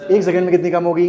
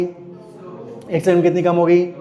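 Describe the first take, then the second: First: Said in the usual way. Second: second drawn out and stressed, whole question slowed; slow, stressed repeat. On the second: Shown as a demonstration. Teacher slowly repeats the question to the class, stressing second. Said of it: "repeated question, slowed".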